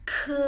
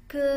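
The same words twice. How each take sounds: First: High, loud "ke" with a puff of air; "ke" as a Mandarin k with strong breath release; aspirated ke. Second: "ke" with no puff of air, vowel held as a schwa; "ke" as a drawn-out Mandarin g sound; unaspirated ke. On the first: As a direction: push air through the k of "ke", then hold it. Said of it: "Ada anginnya ya". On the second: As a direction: hold "ke" out, keeping breath back on the k. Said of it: "tapi bacanya ke". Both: Shown as a demonstration.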